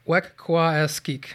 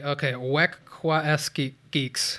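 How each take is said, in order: First: Wekwaskik sounded out slowly; trying a pronunciation. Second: Wekwaskik geeks said slowly with geeks added; second try. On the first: Cohost attempts the tribe name, slowly sounding it out. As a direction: try Wekwaskik carefully, syllable by syllable. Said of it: "can I give it a try". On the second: Cohost retries the tribe name, slowly and carefully. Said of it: "One more time". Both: Shown as a demonstration.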